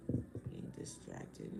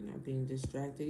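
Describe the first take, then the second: First: Whispered, very slow "Being distracted"; whispered correction. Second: Said in the usual way. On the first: Real, not acted. Correcting her own word for the viewers, whispered. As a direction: breathe "Being distracted" unvoiced as the wrong word.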